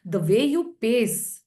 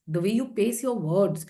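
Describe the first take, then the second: First: Slow, deliberate, spaced-out words; slow paced. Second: Said in the usual way. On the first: Shown as a demonstration. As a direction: draw the words out slowly. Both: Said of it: "your pace of speaking".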